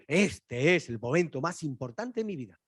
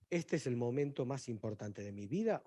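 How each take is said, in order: First: "Este" hit hard, with the whole phrase pressed out; emphatic declaration. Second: Said in the usual way. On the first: Shown as a demonstration. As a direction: put weight on "Este" and mean it. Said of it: "espera que diga". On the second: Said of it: "usted diría, "Le pasó algo".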